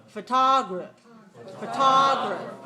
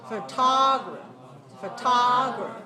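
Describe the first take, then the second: The two takes are said the same way.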